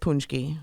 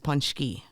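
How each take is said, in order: First: It is said with an American pronunciation. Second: It is said with a Polish pronunciation. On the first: "the American version is punchki" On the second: "The Polish version is punchki"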